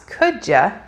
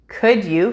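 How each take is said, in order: First: The word 'you' is reduced to a weak 'ya'. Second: The word 'you' is said fully and separately.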